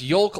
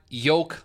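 First: The L sound is pronounced before the K. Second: There is no L sound before the K. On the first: The speaker calls it right. "It's pronounced yolk like folk" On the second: The speaker calls it wrong. "not yolk like joke"

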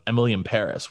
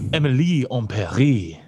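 First: The title is said with plain English pronunciation. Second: The title is said with French-style pronunciation. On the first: The speaker calls it wrong. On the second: The speaker calls it right.

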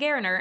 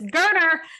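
First: The name does not rhyme with Turner. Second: The name rhymes with Turner. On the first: The speaker calls it wrong. "I have been saying Gerner, and I apologize" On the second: The speaker calls it right. "his last name is pronounced like Turner with a G"

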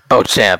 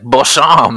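First: The 'ch' is said as a hard 'ch' sound. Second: The 'ch' is said as a soft French 'sh'. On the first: The speaker calls it right. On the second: The speaker calls it wrong.

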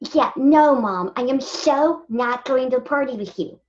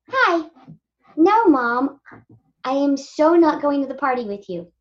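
First: A teenage girl voice with braces is used. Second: A typical teenage girl voice is used.

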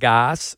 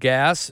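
First: The vowel does not rhyme with gas. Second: The vowel rhymes with the word gas. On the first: The speaker calls it wrong. "not Gass or anything else" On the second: The speaker calls it right. "it rhymes with gas"

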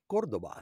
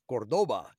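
First: The stress is on the first syllable. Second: The stress is on the second syllable.

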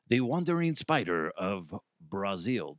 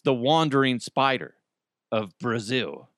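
First: It is said in an attempted Brazilian accent. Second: It is said in the speaker's plain accent.

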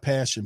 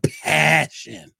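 First: The word is said flatly, with little energy. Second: The word is said intensely, with strong energy. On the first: This is the wrong kind of passion. The speaker calls it wrong. "Not passion" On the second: This is the real passion the game needs. The speaker calls it right. "but passion"

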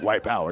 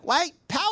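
First: It is said in a hostile, menacing tone. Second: It is said in a cheerful, upbeat tone.

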